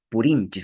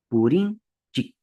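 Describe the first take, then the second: First: The word ends with a final s sound. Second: The word ends without a final s sound. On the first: This is the Collao variety pronunciation. "Usamos el enchis. ... en la varilla collao" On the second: This is the Chanca variety pronunciation. "¿cómo pronuncia el hablante del- de la variedad chanca?"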